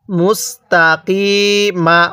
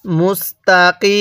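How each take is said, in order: First: মুস্তাকিমা slowly, ending on an open ma; মুস্তাকিমা syllable by syllable through to ma; full ending. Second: মুস্তাকিম with a long ee closing on m; মুস্তাকিম held out, no final vowel; pausal ending. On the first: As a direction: sound the final vowel of মুস্তাকিমা. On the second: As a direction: stop on m, stretching the ee of মুস্তাকিম. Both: Shown as a demonstration. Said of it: "ওয়াকফ করলে কিভাবে পড়ব".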